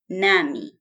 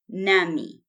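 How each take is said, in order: First: It is said as one contracted word. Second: It is said as one contracted word.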